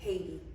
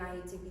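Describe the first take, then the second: First: It starts with an H sound. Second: It starts without an H sound. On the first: It is the English way of saying it. "When you speak English, you say Haiti" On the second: It is the French way of saying it. "because it's speaking French, not not pronouncing the H"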